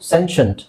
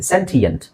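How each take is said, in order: First: The middle is said as a 'sh' sound. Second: The middle is said as separate 'tee' sounds. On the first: The speaker calls it wrong. "ಸೆನ್ಷಂಟ್ ಆಗ್ಬೇಕಲ್ವಾ? ಶಂಟ್ ಆಗ್ಬೇಕು ನಮ್ಮ ಪ್ರಕಾರ" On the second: The speaker calls it right. "ಇದನ್ನ ನಾವು ಸೆಂಟಿಯೆಂಟ್ ಅಂತ ಹೇಳ್ತೀವಿ"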